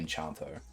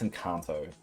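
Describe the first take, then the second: First: The middle consonant is a ch sound. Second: The middle consonant is a hard k sound. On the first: The speaker calls it wrong. "but I say Enchanto" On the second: The speaker calls it right. "I know it's Encanto"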